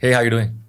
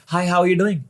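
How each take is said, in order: First: The greeting is said at a low pitch. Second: The greeting is said at a high pitch. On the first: "लो" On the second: "हाय"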